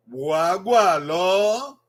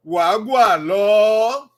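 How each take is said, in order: First: Slow, gentle repeat of "Wagwa lo". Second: "Wagwa lo" very slowly, rising at the end; slowly, with a lift on "lo"; slow model phrase. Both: Shown as a demonstration. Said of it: "you say, "Wagwa lo".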